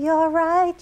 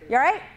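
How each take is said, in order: First: It is said in a soft, condescending tone. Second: It is said in a plain, direct tone.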